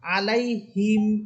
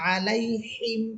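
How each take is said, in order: First: The h is relaxed with the air let out. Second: The h is pressed and harsh in the throat. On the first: "বাতাস একেবারে ছেড়ে দিয়ে তখন সেটা হবে গোলহা" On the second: "হিম এটা হইতেছে জিমের মতো হা"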